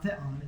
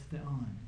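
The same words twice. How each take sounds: First: "theon" with the accent on its first syllable; wrongly stressed "theon", front syllable accented. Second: "theon" with the accent on its last syllable; correctly stressed "theon", end syllable accented. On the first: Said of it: "because the accent's on the second syl-, on the last syllable". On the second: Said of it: "on the last syllable". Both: Shown as a demonstration.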